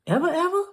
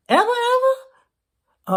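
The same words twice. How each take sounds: First: Said in the usual way. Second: Much higher, slow stretched disbelief; mock incredulous. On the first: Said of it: "repeated question, second stretched". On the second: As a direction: pull it up high and slow in fake shock. Repeated question, second stretched.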